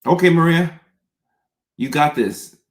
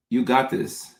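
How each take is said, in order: First: High, loud, psyching herself up; self pep talk. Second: Said in the usual way. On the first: Real, not acted. Host bracing for viewer questions, a loud self pep talk. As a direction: cheer yourself on out loud. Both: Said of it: "pep-talks herself".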